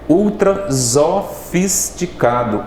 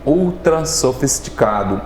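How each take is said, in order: First: The s between vowels is voiced like z. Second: The s between vowels is voiceless like s. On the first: The speaker calls it wrong. "ficaria um som de Z" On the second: The speaker calls it right. "para dar esse som de C"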